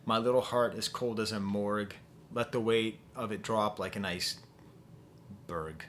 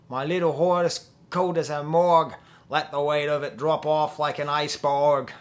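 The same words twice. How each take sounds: First: Said in the usual way. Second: Loud, hammed-up Australian accent. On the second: Shown as a demonstration. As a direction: belt it out in a bad Australian accent. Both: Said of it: "Maybe if I say it with an Australian accent".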